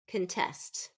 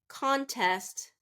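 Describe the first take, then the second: First: It is said as the verb, stressing the second syllable. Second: It is said as the noun, stressing the first syllable. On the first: It names an action. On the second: It names a thing.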